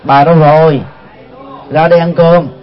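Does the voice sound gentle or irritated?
gentle. It is said softly and gently. The speaker is kindly asking the wife to come eat. "nói nhỏ nhẹ như thế đó"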